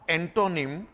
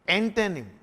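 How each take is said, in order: First: The middle vowel is a full clear 'o'. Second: The middle vowel is a weak, light 'uh'. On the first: The speaker calls it wrong. "It's not एंटोनिम" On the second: The speaker calls it right. "not to, te"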